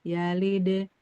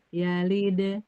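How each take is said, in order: The two takes are said the same way.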